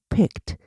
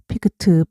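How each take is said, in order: First: The ending consonants are clipped and soft. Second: Extra full vowels are added after the consonants. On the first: The speaker calls it right. "날랑말랑. 그렇지만 발음은 꼭 해요" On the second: The speaker calls it wrong. "그 대신에 우리는 피크트, 피크트 안 그래요"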